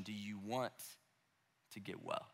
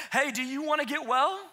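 First: Much softer and lower, unhurried and gentle; tender quiet question. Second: Breezy, offhand and a touch raised; casual blunt question. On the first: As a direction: ask it softly, eye to eye. Jesus looks him in the eyes. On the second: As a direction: toss it off like it's obvious. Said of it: "Jesus has the nerve to walk up and say". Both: Retold or imitated.

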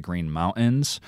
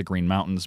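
First: Mountains with no T, "Moun'ains"; exaggerated glottal stop. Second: Said in the usual way. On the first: Shown as a demonstration. Reporter exaggerating the local habit, dropped T in Mountains. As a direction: swallow the T in Mountains. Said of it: "that's just me exaggerating". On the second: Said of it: "dropping their T's".

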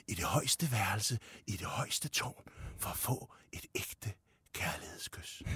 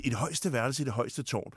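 First: Slow, low and hushed ogre voice; slow right down, fading into a breathy near-whisper; Shrek. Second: Said in the usual way. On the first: Shown as a demonstration. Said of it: "men Shrek siger det". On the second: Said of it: "sådan vil jeg sige det".

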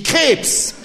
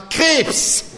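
First: High, loud blurted guess; a child blurting out the answer; eager shout. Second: Even higher loud blurt with a laugh; the same guess shouted once more, laughing; second eager shout. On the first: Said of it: "rief ich". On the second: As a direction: yell it out again, laughing. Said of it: "rief ich zum zweiten Mal". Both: Acted.

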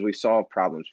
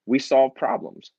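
First: Said in the usual way. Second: Slower, higher, leaning on solve; emphatic restatement. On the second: Shown as a demonstration. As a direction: land it as a firm conviction.

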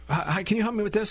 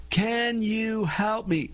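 First: Said in the usual way. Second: Slow, high, over-enunciated request; painfully slow and higher-pitched; talking to a foreigner. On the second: Shown as a demonstration. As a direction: draw out every word as if to someone who knows no English. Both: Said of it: "You speak slow".

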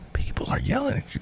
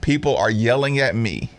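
First: High, hushed incredulous echo; mock disbelief. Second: Said in the usual way. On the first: Host echoes the player's complaint back, in hushed mock disbelief. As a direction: squeak it softly and fast, in disbelief.

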